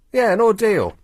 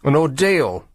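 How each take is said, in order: First: "ordeal" said higher with a firm fall; confirming. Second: Said in the usual way. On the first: Shown as a demonstration. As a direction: settle on "ordeal" pointedly. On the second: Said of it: "not ordure".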